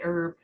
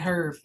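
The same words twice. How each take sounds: First: The word starts with a vowel, no H sound. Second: The word starts with an audible H sound. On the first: "I say Herb" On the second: "you can pronounce the H. It's Herb"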